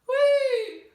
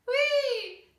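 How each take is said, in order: First: The call sounds broad and dark. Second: The call sounds piercing and bright.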